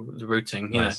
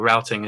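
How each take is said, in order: First: The word is said the British way. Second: The word is said the American way. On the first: This is the speaker's own usual pronunciation. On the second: This is how the listener's side of the Atlantic says it.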